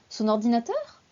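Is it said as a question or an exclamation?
question. It sounds like a surprised question. The speaker is checking what was meant, with mild surprise. "je pose une question ou... ce n'est pas vraiment une question, c'est ah bon"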